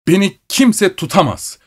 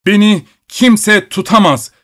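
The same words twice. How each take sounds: First: Higher-pitched indignant shout. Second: Much higher, louder furious shout; growing furious shout. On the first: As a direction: shout him down, rising in pitch. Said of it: "diye bağırıyordu". (yüksek perdeden öfkeli bağırış) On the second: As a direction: yell it, losing all control. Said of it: "gittikçe şiddetlenen bir sesle bağırıyordu". (gittikçe şiddetlenen yüksek bağırış) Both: A narrator's reading.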